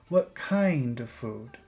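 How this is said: The word kind is emphasized. The speaker calls it right. "kind is a place to focus"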